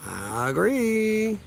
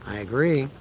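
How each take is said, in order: First: "I agree" stretched very slow and higher; drawn-out agreement. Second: Said in the usual way. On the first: Shown as a demonstration. Streamer relishes agreeing with a commenter, drawn out slow. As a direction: draw "I agree" out long, savouring it.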